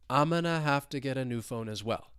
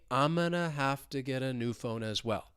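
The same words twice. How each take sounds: First: The sentence is spoken at a natural, flowing speed. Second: The sentence is spoken slowly and carefully.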